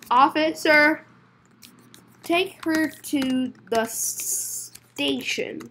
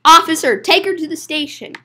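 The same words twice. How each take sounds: First: Slow, halting, soft-ending instruction; slow word by word. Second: Fluent order with a loud opening; brisk order. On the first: Telling the officer to take her away, slowly. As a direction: space out the words with long gaps. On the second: Ordering the officer to take her away, briskly. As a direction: call the officer, then order it in one run. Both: Acted.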